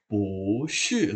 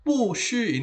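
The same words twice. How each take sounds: First: "Pu shi" with Pu rising, shi falling; better second-tone pu. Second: "pu shi" as two high falling syllables; awkward fourth-tone pu. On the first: Teacher shows which one sounds better, rising pu. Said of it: "lebih bagus bunyinya". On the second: Teacher shows which one sounds less good, falling pu. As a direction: drop both "pu" and "shi" from high. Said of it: "bunyinya kurang bagus". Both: Shown as a demonstration.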